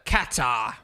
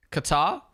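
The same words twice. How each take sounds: First: Qatar. said KAT-ah, flat A, no R at the end; Qatar. in a British commentator way, KAT-ah without R; Crofty's pronunciation. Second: Qatar? said kuh-TAR, first vowel weak, R at the end; Qatar? unstressed kuh, stress on TAR, R sounded; own pronunciation. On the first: Retold or imitated. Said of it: "Or is it the way Crofty says it?". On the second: Shown as a demonstration. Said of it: "is it Qatar, the way I'm saying it?".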